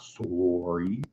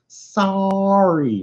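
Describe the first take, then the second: First: "sorry" with a rounded "oh", SORE-ee; Canadian "sorry". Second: "sorry" with a long open "ah", SAH-ree; American "sorry". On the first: Bar girl mimicking the Canadian's "sorry" as SORE-ee. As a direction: draw "sorry" out slowly as "sore-ree", rising at the end. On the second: Bar girl in Denver correcting his accent, "sorry" as SAH-ree. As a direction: draw "sorry" out high as "saaah-ree". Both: Retold or imitated. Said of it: "It's pronounced sorry, not sorry".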